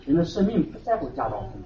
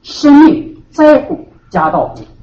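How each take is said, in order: First: Much softer 人的生命不在乎家道丰富, 在 stressed; Jesus' words softly. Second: Slow, stressed 在 in 生命在乎家道丰富; worldly view stressed. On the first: Preacher quoting Jesus to the flock, soft and falling. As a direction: drop the voice to a hush on 不在乎. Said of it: "可是耶稣说". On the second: Preacher voicing the worldly mindset, slow with stressed 在. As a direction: drag out 在 with a falling end, slow. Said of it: "你的脑子里面想什么问题". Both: Shown as a demonstration.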